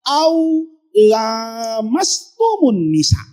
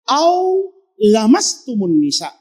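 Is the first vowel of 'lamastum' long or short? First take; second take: long; short. First: The first vowel of lamastum is held long. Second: The first vowel of lamastum is kept short. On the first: It implies mutual contact between two parties. "membaca ayatnya pakai mat tabi'i" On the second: It means touching of any kind. "itu bacanya pendek"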